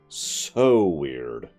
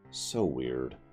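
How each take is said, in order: First: The word 'so' gets strong emphasis. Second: The word 'so' gets light emphasis.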